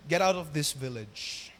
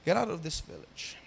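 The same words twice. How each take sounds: First: Low, slow dismissal, leaning on out; villagers sending him away. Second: Softer echo of the line. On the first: Retold or imitated. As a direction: push them out of the village, slowly and lower. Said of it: "At sabi nila". (mababa at mabagal na pagpapaalis) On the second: Shown as a demonstration. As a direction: let the rejection sink in quietly. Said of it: "You see?". (mahinang pag-uulit, diin sa out)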